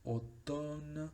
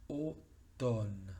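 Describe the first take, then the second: First: Automne said higher as French oton; French word. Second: Automne said as oton, m silent; French word. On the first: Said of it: "el siguiente ejemplo es". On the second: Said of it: "esa M es muda". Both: Shown as a demonstration.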